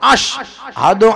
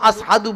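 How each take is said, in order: First: The word is said with a 'sh' sound. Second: The word is said with an 's' sound. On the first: This is how it should be said in the call to prayer. "আজানে যেটা বলা হবে সেটার ভিতরে এই শিনটাই হবে" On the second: This is how an injured tongue managed to say it. "আস আস হাদু আস হাদু বলতেন"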